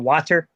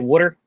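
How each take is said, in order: First: The T is fully and clearly pronounced. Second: The T is softened, not fully pronounced. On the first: "you gotta stop and pronounce the T" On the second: "I always say water"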